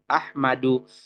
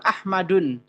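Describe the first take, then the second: First: The word ends on a vowel without n. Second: The word ends with an added n sound. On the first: The speaker calls it right. "Yang betul adalah Ahmadu" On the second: The speaker calls it wrong. "Nah itu salah"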